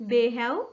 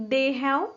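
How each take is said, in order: Both takes have the same delivery.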